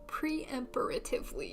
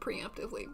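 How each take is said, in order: First: An extra 'per' syllable is added mid-word. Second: No extra syllable is added mid-word. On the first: The speaker calls it wrong. "Preemptively was the first bad one" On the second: The speaker calls it right. "instead of preemptively"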